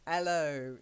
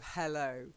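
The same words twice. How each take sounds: First: The opening H sound is left out. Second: The opening H sound is clearly pronounced. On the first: "they drop the H" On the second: "instead of hello"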